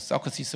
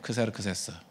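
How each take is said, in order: First: The name is said as seo-keu-si-seu. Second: The name is said as kseru-kseu-seu. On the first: This is how Americans say the name. The speaker calls it wrong. "미국 애들은 발음을 엉터리라 가지고 서크시스 뭐 이렇게 발음하고" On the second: This is the original form of the name. The speaker calls it right. "이게 원 발음이에요"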